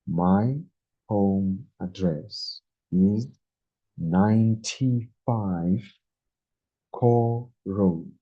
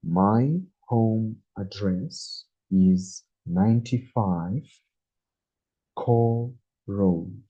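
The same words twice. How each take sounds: The two takes are said the same way.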